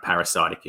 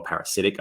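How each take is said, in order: First: "parasitic" as para-SIGHT-ic; uncertain pronunciation. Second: "parasitic" as para-SIT-ic; alternative pronunciation. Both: Real, not acted. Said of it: "I'm not sure how you say that".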